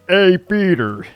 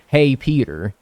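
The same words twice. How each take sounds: First: It is said in a Joe impression voice. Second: It is said in an ordinary voice.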